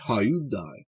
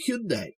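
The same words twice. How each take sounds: First: The name is said in the usual British way. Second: The name is said in the non-British way. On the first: This is how people in Britain usually say it. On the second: This is how the company itself says it.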